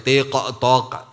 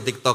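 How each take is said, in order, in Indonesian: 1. Konsonan akhir dilepas dengan pantulan bergema. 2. Konsonan akhir berakhir datar, tanpa gema. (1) "nggak usah pakai TikTok, lebay banget ya" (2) "TikTok aja"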